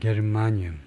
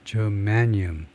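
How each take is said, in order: First: It is said as Korean ge-reu-ma-nyum. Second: It is said in English, stressing the second syllable. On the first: "우리말로는 게르마늄" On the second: "영어식 발음은 예, germanium"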